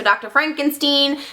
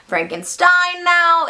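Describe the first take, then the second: First: "Frankenstein" ending in "steen"; Fronkensteen pronunciation. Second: "Frankenstein" ending in a drawn-out "stine"; stressed STINE ending. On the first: Says name two ways. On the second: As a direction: say "Frankenstein" slowly with a long final "stine". Corrects to usual name. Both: Shown as a demonstration.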